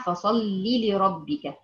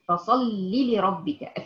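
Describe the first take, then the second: First: فصلي لربك recited with no lengthened ya, slow; correct recitation. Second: فصلي لربك with the ya of فصلي wrongly stretched, slow; common mistake. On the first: Teacher recites the correct form for her students, slowly. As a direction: say فصلي with a short final ya, carefully. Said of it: "ما تقوليش فصلي لربك". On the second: Teacher imitates the common student error, slow and drawn out. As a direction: drag out the ya in فصلي as learners wrongly do. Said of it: "بمد الياء". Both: Shown as a demonstration.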